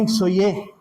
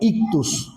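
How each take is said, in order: First: Three syllables, ending in an 'oye' sound. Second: Two syllables, ending in a 'tus' sound. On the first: The speaker calls it wrong. "no digan ixoye" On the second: The speaker calls it right. "Esa palabra se pronuncia ictus o ictos"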